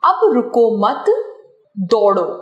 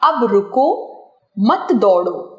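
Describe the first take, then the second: First: There is a pause after the word mat. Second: There is a pause after the word ruko. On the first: It is an order to run. "दौड़ने का आदेश" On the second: It is an order to stop. "रुकने का आदेश"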